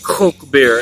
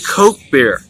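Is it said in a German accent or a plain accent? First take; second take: German; plain. First: It is said with a German accent. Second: It is said in a plain, unaccented voice.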